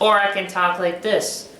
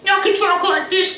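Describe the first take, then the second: First: It is said in the speaker's natural voice. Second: It is said in a Blue Pikmin character voice.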